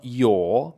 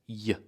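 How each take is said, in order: First: The word has a full, long vowel. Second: The word has a short, reduced schwa vowel. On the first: The speaker calls it wrong. "it's not your" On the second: The speaker calls it right. "but it's y"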